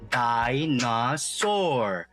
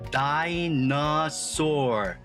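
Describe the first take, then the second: First: Each syllable is said separately with breaks. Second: The same.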